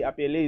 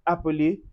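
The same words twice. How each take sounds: First: The second vowel sounds like an open 'è'. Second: The second vowel is a short, weak schwa. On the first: The speaker calls it wrong. "appeler is wrong" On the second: The speaker calls it right. "we say appeler"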